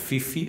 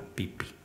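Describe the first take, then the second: First: The name begins with an f sound. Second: The name begins with a p sound. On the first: The speaker calls it wrong. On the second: The speaker calls it right.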